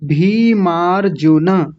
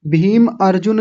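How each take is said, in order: First: भीमार्जुन slowly as bhee-maar-ju-na; joined word, drawn out. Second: भीम अर्जुन as two separate everyday names; mispronunciation demo. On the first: Teacher corrects the split name, slow भीमार्जुन as one word. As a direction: stretch भीमार्जुन, ending on a full na. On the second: Teacher shows what not to say, भीम अर्जुन as two names. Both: Shown as a demonstration. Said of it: "भीम अर्जुन नहीं बोलेंगे".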